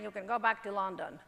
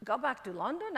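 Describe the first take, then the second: First: Said in the usual way. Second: LONDON lifted into a rising question; incredulous echo question. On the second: Retold or imitated. Actress echoing the tycoon's dismissal, incredulous question rising on "London". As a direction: throw "London" back with rising disbelief. She echoes the dismissal in disbelief.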